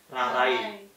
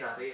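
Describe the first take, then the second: First: The word ends with a clear 'ai' glide. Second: The word ends with one blended single vowel. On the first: "Dibacanya kan Rarai pakai I" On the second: "A sama I itu blend dia jadi I"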